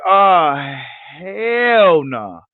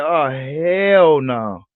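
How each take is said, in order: First: A louder, quicker "Oh, hell no" blurted out; louder exclaim. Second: Slow drawn-out disbelief. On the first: Critics reacting to Bud beating Horn, louder outraged exclaim. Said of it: "They was like". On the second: Critics reacting to Bud beating Horn, drawn-out disbelief. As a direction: let "hell no" drag out in disbelief. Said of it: "they was like". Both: Retold or imitated.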